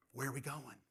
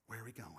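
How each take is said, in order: First: Said in the usual way. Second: "Where are we going?" asked again much softer, nearly hushed; hushed repeat. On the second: Shown as a demonstration. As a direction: drop the voice right down on the repeat so it sinks in.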